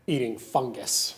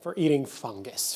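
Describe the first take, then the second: First: Disgusted. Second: Slow, distaste on eating fungus; disgusted. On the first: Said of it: "how I feel about". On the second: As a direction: sneer the words eating fungus. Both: Real, not acted.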